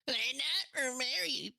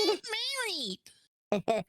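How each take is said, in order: First: It is said in a normal pitch. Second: It is said in a high-pitched voice.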